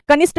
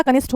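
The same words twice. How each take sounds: First: कनिष्ठ ending in plain 't', "kanisht"; higher "ka-NISHT" for कनिष्ठ; wrong pronunciation. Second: कनिष्ठ ending in aspirated 'tth'; correct pronunciation. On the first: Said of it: "कनिष्ठ नहीं होता". (कनिष्ठ को 'कनिष्ट' बोलना) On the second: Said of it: "कनिष्ठ होता है". (कनिष्ठ के अंत में 'ठ') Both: Shown as a demonstration.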